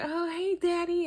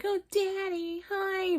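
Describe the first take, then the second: First: Put-on very high, louder girlish coo; sugary phone greeting. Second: Sugary phone greeting. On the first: Maila greeting Quaylon on the phone in a very high sugary coo. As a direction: squeal it sweetly like she's thrilled he called. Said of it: "she'd be like". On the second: Retold or imitated. Host mocking Maila's phone greeting to Quaylon in a very high coo. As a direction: gush it up high like a smitten girlfriend. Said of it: "you're like".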